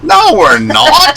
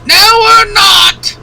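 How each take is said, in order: First: High, slow squeaky laughing no; shrill mock denial. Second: Very high, slow shrieking denial; shrill falsetto shout. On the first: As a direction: squeal it out like a Python granny. Mock shrill denial, Monty Python. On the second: Pretend. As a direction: shriek it like a Python mum. Mock shrill denial louder.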